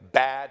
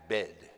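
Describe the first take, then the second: First: The vowel is an open 'a' sound. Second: The vowel is closer, like an 'e' sound. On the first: This is how the speaker normally talks. "If I say bad" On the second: This is how the character talks. "he says bed"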